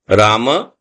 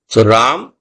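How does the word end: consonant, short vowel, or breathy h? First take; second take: short vowel; consonant. First: It ends with a short a vowel. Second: It ends on the consonant m, no vowel. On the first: "if the ma is full, then you have to say Rama" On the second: "Ram with the halant. You say Ram. Just the ma in a short form"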